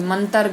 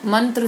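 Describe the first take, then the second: First: मंतर with a vowel between T and R; wrong split cluster. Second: मंत्र with T and R run together; correct cluster. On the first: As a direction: say मंतर wrongly, man-tar. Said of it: "गलत". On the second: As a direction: say मंत्र with no vowel inside TR. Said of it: "सही". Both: Shown as a demonstration.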